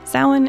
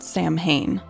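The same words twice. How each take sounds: First: The middle is said with a W sound. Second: The middle is said with an M sound. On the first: The speaker calls it right. "In this case, it's the W" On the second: The speaker calls it wrong. "That would be the incorrect pronunciation"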